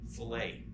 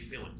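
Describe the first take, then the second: First: It is said like the word for a meat cut. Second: It is said like the rounded-corner term. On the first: The word names a cut of meat. The speaker calls it wrong. "this looks like the word fillet" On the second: The word names a rounded corner. The speaker calls it right. "but we say fillet"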